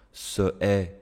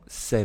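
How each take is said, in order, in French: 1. La voyelle de ce est gardée devant est. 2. La voyelle de ce tombe et les mots sont liés.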